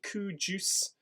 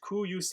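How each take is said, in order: First: The middle consonant is a 'j' sound. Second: The middle consonant is a 'y' sound. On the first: The speaker calls it wrong. "I don't want any cu juice" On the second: The speaker calls it right. "a use sound"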